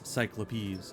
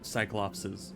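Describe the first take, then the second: First: The word ends with the sound '-opes'. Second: The word ends with the sound '-opses'. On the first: The speaker calls it right. "it is Cyclopes" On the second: The speaker calls it wrong. "not Cyclopses"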